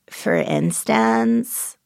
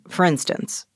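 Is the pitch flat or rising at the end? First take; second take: rising; flat. First: The pitch rises at the end, with creak. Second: The pitch stays flat throughout.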